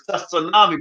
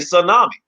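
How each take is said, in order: First: The word begins with an audible T sound. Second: The word begins with no T sound. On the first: This is the original pronunciation. "It's tsunami" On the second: This is how people say it locally. "but we say tsunami"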